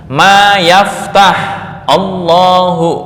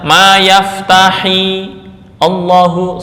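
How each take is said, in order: First: The verb ends on a bare consonant before Allahu. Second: The verb ends with an added i vowel. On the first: The speaker calls it right. "misal dipisah-pisah" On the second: The speaker calls it wrong. "Jangan dibaca ma yaftahi Allahu, salah"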